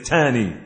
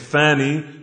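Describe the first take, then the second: First: The word begins with a hard t sound. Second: The word begins with a soft th sound. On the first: "They may pronounce a tha like a ta" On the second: "instead of saying"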